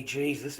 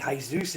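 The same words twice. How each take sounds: First: "Jesus" said the English way, JEE-zus; English pronunciation. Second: "Jesus" said Spanish-style, hay-ZOOS; Spanish pronunciation. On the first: Streamer checking a viewer's name, "Jesus" pronounced JEE-zus. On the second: Streamer checking a viewer's name, "Jesus" pronounced hay-ZOOS. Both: Shown as a demonstration. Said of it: "how you pronounce your name".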